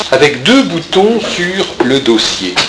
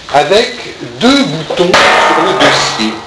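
The two takes are said the same way.

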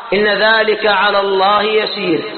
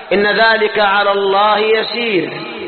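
Both takes have the same delivery.

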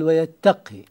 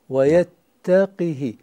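First: The q sound has no vowel after it. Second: The q sound is followed by an i vowel. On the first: This is a lightened form used in the recitation. "هنا خفف" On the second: This is the regular expected form. "القياس إذن هو بكسر القاف"

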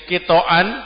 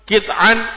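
First: A vowel follows the t sound. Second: No vowel follows the t sound. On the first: "toknya di fathah" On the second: "Kalau toknya disukun"

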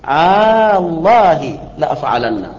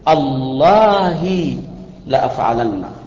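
First: The opening vowel is drawn out long. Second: The opening vowel is cut short. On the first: "فمده أن تقول الله لأفعلن، الله لأفعلن، هذا مد" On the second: "ويجوز أن تقطع الهمزة فتقول"

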